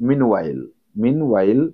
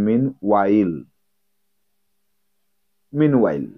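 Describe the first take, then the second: First: Meanwhile, both syllables, mean clear; correct meanwhile. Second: Meanwhile as one smooth word, MEEN-while; correct meanwhile. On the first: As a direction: repeat meanwhile slowly for students. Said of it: "while-ও বলবে না". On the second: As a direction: model meanwhile for the class. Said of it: "উচ্চারণটা এরকম হবে". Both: Shown as a demonstration.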